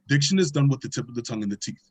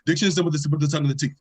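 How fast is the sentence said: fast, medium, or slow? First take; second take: medium; fast. First: The sentence is said at a medium pace. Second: The sentence is said at a fast pace. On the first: "every time you repeat the sentence, it gets faster" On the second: "it gets faster and faster"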